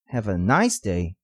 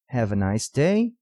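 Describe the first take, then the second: First: The last word does not carry the main stress. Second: The last word carries the main stress. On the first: The speaker calls it wrong. "soará estranho" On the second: The speaker calls it right. "a ênfase correta fica nas palavras "day""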